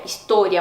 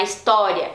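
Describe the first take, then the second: First: História with a rounded, closed "oh". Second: História with a wide-open "aw" on the o. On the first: Teacher correcting to Spanish história, closed o. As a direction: tighten the o in história, Spanish style. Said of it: "mais fechadinho". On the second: Teacher showing learners what to avoid, história with open o. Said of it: "não é história". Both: Shown as a demonstration.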